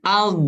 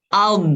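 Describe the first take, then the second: Both takes have the same delivery.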